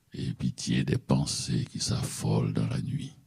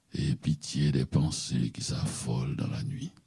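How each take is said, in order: Both takes have the same delivery.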